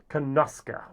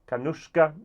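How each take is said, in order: First: The name ends with a 'suke' sound. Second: The name ends with a 'shka' sound. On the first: The speaker calls it right. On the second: The speaker calls it wrong.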